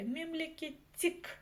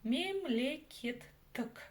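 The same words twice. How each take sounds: First: The last vowel is very soft, like i. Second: The last vowel is between soft and hard. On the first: The speaker calls it wrong. "через букву «и», это будет очень и очень мягко. Неправильно" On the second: The speaker calls it right. "нечто среднее по мягкости между буквами «ы» и «и»"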